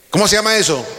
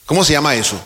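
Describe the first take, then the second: First: Higher and a bit louder, urging an answer; louder prompt. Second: Said in the usual way. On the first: Shown as a demonstration. Preacher urges congregation to answer, louder higher prompt. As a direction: push the question up to rouse them. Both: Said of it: "Dígalo fuerte".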